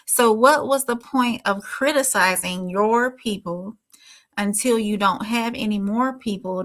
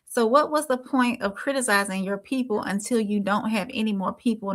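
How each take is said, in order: First: It is read more slowly. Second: It is read at a normal pace.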